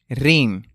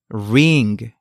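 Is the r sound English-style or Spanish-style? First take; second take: Spanish-style; English-style. First: The r is made with the tongue touching the palate. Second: The r is made with the tongue touching nothing. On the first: The speaker calls it wrong. "No, es incorrecto" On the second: The speaker calls it right. "La pronunciación correcta es ring"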